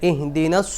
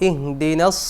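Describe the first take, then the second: The two takes are said the same way.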